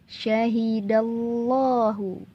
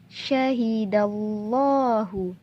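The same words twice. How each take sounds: Both takes have the same delivery.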